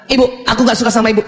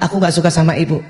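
First: Put-on rushed, mildly raised child voice; child's heated complaint. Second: Put-on subdued, lower-pitched child complaint; lowered intonation. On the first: Child tells mother he dislikes her, heated and fast. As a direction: fire off the complaint quickly, mock-angry. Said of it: "suara, suara". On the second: Child tells mother his dislike after deep breaths, calmed. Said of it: "intonasi yang tujuh oktav itu bisa turun".

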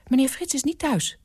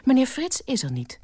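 First: High, anxious housekeeper; mildly fearful, high voice. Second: High, firm statement; firm high-voiced housekeeper. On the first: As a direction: answer the phone timidly, pitched high. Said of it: "Het klonk angstig". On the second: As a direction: state it firmly, pitched up. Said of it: "ditmaal ferm". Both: A narrator's reading.

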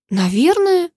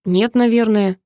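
First: Indignant moaning echo. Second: Said in the usual way. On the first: A narrator's reading. Karina echoing the hero's vague answer, moaning in disbelief. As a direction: throw his word back at him, outraged and whiny. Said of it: "простонала Карина".

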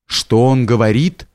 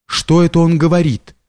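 First: Mildly dazed echo of a question, rising at the end; as if waking. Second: Lightly voiced young man, higher pitch; a puzzled question pitched up, falling at the end; young man asking. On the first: Old man repeats the young man's question, mildly as if waking. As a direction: repeat it as if just roused from sleep, understated. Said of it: "как будто бы пробудясь от сна". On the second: Young fisherman asks the old man about the stranger, lightly voiced, higher questioning. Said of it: "один молодой парень". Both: A narrator's reading.

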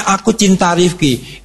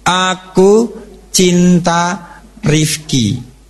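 First: Said in the usual way. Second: Put-on reading a child's note. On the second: Shown as a demonstration.

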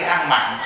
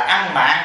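First: "mặn" with a short vowel, as in salty; misheard word "ăn mặn". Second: "mạn" with a full a, not short ă; corrected word "ăn mạn". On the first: Teacher quoting the misunderstood word to followers, "ăn mặn" with short ă. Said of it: "Chúng ta hiểu lầm cái chữ". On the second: Teacher correcting followers' misunderstood word, "ăn mạn" with open a. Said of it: "Chúng ta hiểu lầm cái chữ ăn mặn". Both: Shown as a demonstration.

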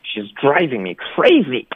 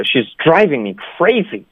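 First: Slower take, DRIVING and CRAZY stressed and stretched; stress on key words. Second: Normal fed-up complaint, stress on DRIVING and CRAZY; mildly angry, venting on the key words; fairly angry. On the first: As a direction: lean hard on driving and crazy, drawing them out. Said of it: "重音都是放在". (放慢，重读 driving 和 crazy) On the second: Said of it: "正常的说法就是比较怒的". (比较生气的正常说法) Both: Shown as a demonstration.

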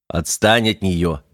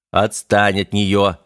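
First: Slow, firm command; stern order. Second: Slow, louder, firmer; now really make him stop; sharper order. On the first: Механик велит Бандере отстать от девушки, строго. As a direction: order him to back off, slowly. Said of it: "велел механик". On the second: Механик повторно одёргивает парня, жёстче. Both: Acted.

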